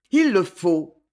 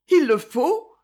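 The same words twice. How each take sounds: First: Falling, settled statement; a short, resolved answer; firm statement. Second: High, rising question; surprised query, lifted at the end; questioning echo. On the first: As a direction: state it firmly, letting the pitch fall. Resigned answer in acted dialogue. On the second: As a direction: echo it back as a question, pitch climbing. Other character questions the answer. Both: A narrator's reading.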